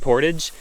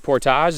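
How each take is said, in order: First: The word is said with an American pronunciation. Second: The word is said with a Canadian pronunciation. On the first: "the Americans say portage" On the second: "a bunch of Canadians on YouTube and they say portage"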